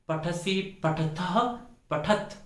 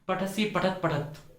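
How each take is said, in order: First: The second word ends with a breathy release. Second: The second word ends without a breathy release. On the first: The speaker calls it right. "विसर्ग का उच्चारण स्पष्ट रूप से करना चाहिए।" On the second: The speaker calls it wrong. "अशुद्ध।"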